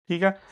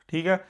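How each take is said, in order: No difference in how they are said.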